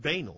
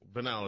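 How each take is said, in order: First: It uses the Midwest pronunciation of the word. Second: It uses the non-Midwest pronunciation of the word. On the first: "which is how we pronounce it here in the Midwest" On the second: "as opposed to"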